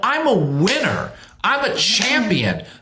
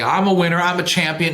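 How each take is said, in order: First: It is said with strong feeling and conviction. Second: It is said casually, without feeling. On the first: The speaker truly believes and feels the words. The speaker calls it right. "Mean it. Feel it" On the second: The speaker does not really believe the words. The speaker calls it wrong. "you can't just say, well, you know, okay"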